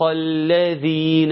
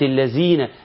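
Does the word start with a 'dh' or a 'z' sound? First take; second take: dh; z. First: The consonant after 'al' is a 'dh' sound. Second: The consonant after 'al' is a 'z' sound. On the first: The speaker calls it right. "وتطلع لسانك في الذال" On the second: The speaker calls it wrong. "شال الحرف الذال وحط زاي، بقت الذين، ما ينفعش"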